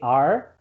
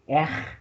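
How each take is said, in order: First: The R has a southern Brazilian accent. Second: The R has a Rio de Janeiro accent.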